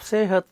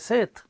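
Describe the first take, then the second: First: The word is said with two full syllables. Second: The word is squeezed into a single syllable. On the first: "instead of sehat" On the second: "they say set"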